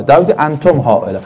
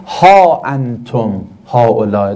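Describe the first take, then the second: First: Said in the usual way. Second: ها انتم هؤلاء recited slowly, lower, with an open drawn ها; slow Quranic recitation of ها انتم هؤلاء. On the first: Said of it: "هاش یعنی چی". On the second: Shown as a demonstration.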